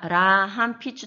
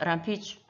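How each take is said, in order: First: Every syllable of the word is pronounced. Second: It is said quickly with a syllable dropped. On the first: "라함피추 다 하지 않고" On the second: "그냥 빨리 해서 람피추"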